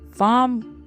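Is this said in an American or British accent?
British. The r after the vowel is not pronounced.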